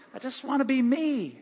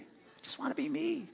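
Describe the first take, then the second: First: Said in the usual way. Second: Much softer, nearly breathed repeat; soft echo. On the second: Shown as a demonstration. Pastor quietly repeating his wish to congregation, hushed. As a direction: let it fall to a private hush.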